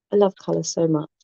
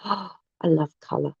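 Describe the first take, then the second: First: Said in the usual way. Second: Gasp, then whisper I love colour. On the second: Real, not acted. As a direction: breathe it out in an awed whisper. Whispered, then repeated aloud.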